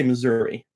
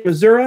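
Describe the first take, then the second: First: Missouri pronounced "muh-ZUR-ee"; Missouri ending in "ee". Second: Missouri pronounced "muh-ZUR-uh"; Missouri ending in "uh". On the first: Streamer offers Cole the other way, Missouri ending in "ee". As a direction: end Missouri on an "ee" vowel. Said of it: "or you say Missouri?". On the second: Streamer asks Cole how to say it, Missouri ending in "uh". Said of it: "Do you say Missouri or you". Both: Shown as a demonstration.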